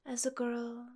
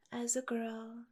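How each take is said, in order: Both takes have the same delivery.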